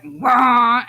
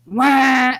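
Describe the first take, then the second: First: Loud, drawn-out mock duck wail; dying duck squawk. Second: Loud, higher-pitched imitated wail; squawk in another tone. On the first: Mother retelling a noise heard while working, dying duck squawk. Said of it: "like a dying duck". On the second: Parent retelling the second strange noise, squawk in a different tone. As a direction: imitate a sour, duck-like blare. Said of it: "again, but in a different tone".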